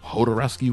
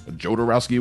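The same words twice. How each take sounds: First: The name begins with an H sound. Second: The name begins with a J sound. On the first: "with an H" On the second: "with a J"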